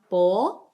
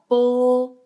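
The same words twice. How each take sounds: First: The pitch rises from mid to high. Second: The pitch stays high and level. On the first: "second one" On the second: "first tone"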